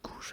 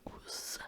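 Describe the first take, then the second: First: The middle consonant is a zh sound. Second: The middle consonant is a z sound. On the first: "ça pouvait également se prononcer Gouges à l'époque" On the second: "Gouze avec un Z"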